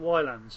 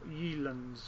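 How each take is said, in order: First: The name begins with a 'why' sound. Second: The name begins with a 'yeh' sound. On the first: This is the common way people say it. "I've been pronouncing it Wylands" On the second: This is another possible intended way. "or Yelands, or whatever"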